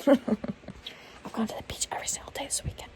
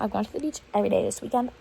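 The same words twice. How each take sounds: First: Higher breathy whisper, giggly brag; bragging. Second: Said in the usual way. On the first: Shown as a demonstration. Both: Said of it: "That is me trying to brag".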